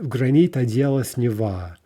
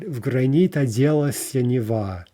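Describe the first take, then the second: First: The verb ends in a short '-s' sound. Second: The verb ends in a full '-sya' syllable. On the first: The line breaks the poem's meter. The speaker calls it wrong. "read this uh, with оделась ... that violates the meter" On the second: The line fits the poem's meter. The speaker calls it right. "That's what we're looking for"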